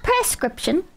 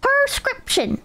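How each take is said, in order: First: Prescription slowed, opening on "press"; says "press-cription". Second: Prescription with a high "per" start; says "per-scription". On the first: Streamer mocking the other way, press-cription. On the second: Streamer contrasting for chat, per-scription. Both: Shown as a demonstration. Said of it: "not prescription".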